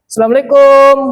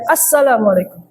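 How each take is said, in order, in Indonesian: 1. Suku kata terakhir kum dibaca panjang. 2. Suku kata terakhir kum dibaca pendek. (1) "setelah huruf kaf, itu dikasih huruf waw. Sehingga ada mad" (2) "Kumnya pendekin aja"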